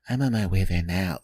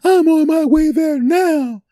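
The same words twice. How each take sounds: First: It sounds calm and friendly. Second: It sounds upset and angry.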